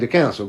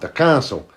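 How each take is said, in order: First: The word is said the modern way, 'council'. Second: The word is said the older way, like 'castle'. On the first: This is how people speak today. "We say the council" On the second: This is how an older generation spoke. "That's how he would say it"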